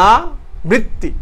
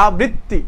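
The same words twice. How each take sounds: First: "আবৃত্তি" very slowly, split as aa, brit-ti; syllable-by-syllable demo. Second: Said in the usual way. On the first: Shown as a demonstration. Teacher making students notice the parts of "আবৃত্তি", slowly sounding it out. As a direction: draw out "আবৃত্তি" with a pause after the first vowel. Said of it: "বানানটা খেয়াল করো". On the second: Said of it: "খেয়াল করো".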